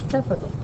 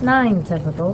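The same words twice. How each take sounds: First: Just typical, alone and softer; right take. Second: Nine typical run together, the wrong way; wrong take. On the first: Teacher showing students the right way to write it. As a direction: say only typical, nothing before it. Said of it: "Not nine typical, but". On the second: Teacher showing students the wrong way to write it. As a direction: say nine typical as if it were one label. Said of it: "Not nine typical". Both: Shown as a demonstration.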